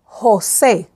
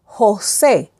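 The two takes are said the same way.

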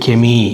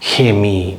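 First: The word starts with a hard K sound. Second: The word starts with a breathy H-like sound. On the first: "சில பேர் கெமி அப்படின்னு சொல்கிறாங்க" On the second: "சில பேர் ஹெமி ஹெமி ஹெமி அப்படின்னு சொல்கிறாங்க"

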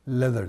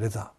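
First: It starts with L and has a soft th. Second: It has a Japanese-style R and a z sound. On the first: The speaker calls it right. "ティーエイチの発音は少し軽く舌を噛むような感じで" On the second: The speaker calls it wrong. "なんとなく日本的な発音でレザーって言っちゃった"

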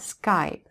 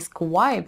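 First: It is said plainly, with no w glide. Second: A w glide comes before the vowel. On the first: The speaker calls it right. "да, Skype" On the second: The speaker calls it wrong. "не Skype же"

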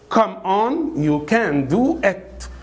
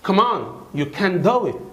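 First: The sentence is said slowly and clearly. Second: The sentence is said quickly and run together. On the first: "طبعا ده يا جماعة اللي هو slow speaking" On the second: "انطقها ازاي بسرعة زي الاجانب؟"

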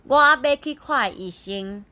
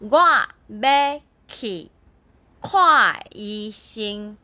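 First: The phrase is said quickly with syllables run together. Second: The phrase is said slowly with each syllable distinct. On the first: "Nhưng mà đọc nhanh sẽ biến thành" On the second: "Thì tiếng Phúc Kiến nói là"

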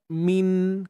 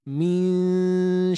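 First: The n is fully articulated at its place. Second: The n is hidden with a nasal hum. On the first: The speaker calls it wrong. "Kalau tepat" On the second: The speaker calls it right. "Kalau kita sembunyi"

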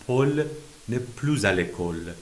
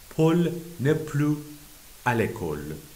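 First: Plus is linked to the next word with z. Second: Plus is said without a linking z sound.

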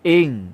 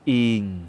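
First: The syllable is said short and abrupt. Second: The syllable is said on a low tone. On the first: "จะเป็นเสียงวรรณยุกต์โทเสียงจะสั้น" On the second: "เสียงวรรณยุกต์เอกเป็นเสียงต่ำนะครับ"

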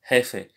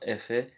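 First: The word starts with an H sound. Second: The word starts without an H sound. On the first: The speaker calls it right. "You have to say the H sound once again" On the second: The speaker calls it wrong. "It's not efe"

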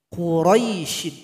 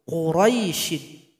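No difference in how they are said.

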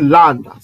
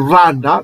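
First: The word begins with an L sound. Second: The word begins with an R sound. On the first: This is the paleo-Hebrew pronunciation. "mais en paléo-hébreu, c'est landa" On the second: This is the modern Hebrew pronunciation. "On prononce en hébreu randa"

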